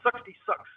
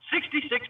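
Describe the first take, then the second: First: The vowels are reduced to a schwa sound. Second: The vowels are full, standard English vowels. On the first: "sixty-six becomes sixty-six"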